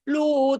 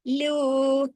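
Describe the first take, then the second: First: The syllable is heavy, said with a full mouth. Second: The syllable is light, said with lips spread. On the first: The speaker calls it wrong. "अगर आप इसको भी पौ की तरह लू को पढ़ेंगे, तो वो भी हैवी हो जाएगा" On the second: The speaker calls it right. "हंसने की तरफ साइड वाइज खिंचेगा"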